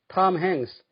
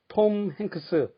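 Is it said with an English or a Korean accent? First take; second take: English; Korean. First: It is said with native English sounds and rhythm. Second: It is said with Korean-style syllables and vowels. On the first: The speaker calls it right. "당연하지만" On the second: The speaker calls it wrong. "한국 발음은 단번에 알아듣기 어렵습니다"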